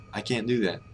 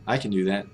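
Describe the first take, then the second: First: "can't" with a full open vowel; full "can't", T swallowed into "do"; stressed can't. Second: "can" reduced to a quick "kən"; weak "can", weight on the other words; unstressed can. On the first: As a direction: give "can't" its weight. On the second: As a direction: skip lightly over "can". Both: Shown as a demonstration. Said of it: "the intonation is different on can't".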